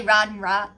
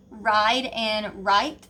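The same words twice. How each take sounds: First: "ride and right" with the long i flattened to "ah"; Southern price smoothing. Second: Said in the usual way. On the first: Shown as a demonstration. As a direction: say "ride" and "right" as "rahd" and "raht". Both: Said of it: "We say ride and right".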